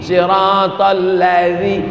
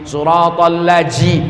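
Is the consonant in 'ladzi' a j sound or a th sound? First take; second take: th sound; j sound. First: The consonant is a voiced th, tongue at teeth. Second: The consonant is said like an English j. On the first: The speaker calls it right. "pakai za, letakkan lidah di ujung gigi" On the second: The speaker calls it wrong. "bukan ji"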